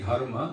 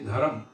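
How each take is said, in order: First: The word ends with a full final vowel. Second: The final vowel is dropped and moved inside. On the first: "we say dharma" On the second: "they'll say dharam"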